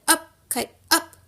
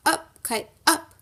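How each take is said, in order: First: Up, kite, up! called out higher and louder; shouted. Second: Said in the usual way. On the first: Acted. Toad calling to the kite in the meadow, shouting upward. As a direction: call Up, kite, up! to the sky. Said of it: "and he shouted". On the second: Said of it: "and shout".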